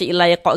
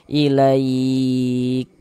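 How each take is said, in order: First: The final k bounces into a short vowel. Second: The final k ends with a soft breathy puff. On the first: The speaker calls it wrong. "kalau kita baca ilaiqo gitu mantul" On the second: The speaker calls it right. "nafas yang mengalir ketika kita mengucapkannya seperti memercik"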